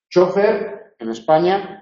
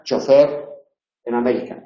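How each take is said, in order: First: Chofer stressed on CHO; Spanish stress. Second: Chofer stressed on FER; American stress. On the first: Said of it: "en España con tilde porque es llana". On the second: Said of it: "En América sin tilde". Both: Shown as a demonstration.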